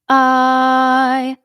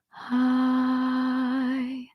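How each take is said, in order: First: The vowel starts with a sharp catch in the throat. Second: The vowel starts with a soft puff of air. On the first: "a glottal onset" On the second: "a breathy onset, meaning I start with air"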